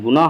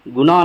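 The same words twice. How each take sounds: First: गुनाह with a breath of h at the end; sounded final h. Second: गुनाह said as 'gunaa', open ending; dropped final h. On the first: Teacher showing the right form, 'gunaah' with final h. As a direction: finish गुनाह on an audible h. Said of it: "गुनाह बोलते हैं". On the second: Teacher showing the rejected form, गुनाह as 'gunaa'. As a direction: end गुनाह on the vowel, no h. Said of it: "गुनाह नहीं बोलते हैं". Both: Shown as a demonstration.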